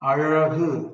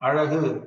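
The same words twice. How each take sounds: First: The curled-tongue sound is strong and exaggerated. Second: The curled-tongue sound is light and relaxed. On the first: "to emphasize the pronunciation, I'm saying like this now" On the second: "when you're naturally speaking, you don't have to put so much effort"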